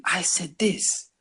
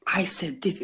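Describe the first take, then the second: First: High, drawn-out disbelief at yourself; appalled realization. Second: High-pitched amused recollection; amused realization. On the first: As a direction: stretch it out slowly, mock-appalled. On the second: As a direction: react to your old words, tickled. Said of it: "It's funny". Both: Retold or imitated.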